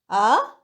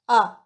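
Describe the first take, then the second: First: The pitch dips low and then rises. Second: The pitch falls sharply from high to low. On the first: It expresses doubt. "Third tone" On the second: It gives an answer or shows sudden understanding. "Fourth tone"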